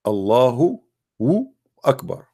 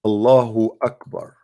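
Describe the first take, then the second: First: Allahu, then a pause, then Akbar; split into two words. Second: Said in the usual way. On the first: Shown as a demonstration. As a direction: pull Allahu and Akbar apart with a beat between. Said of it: "I will break that down for you". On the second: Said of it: "I will type it for you in Arabic".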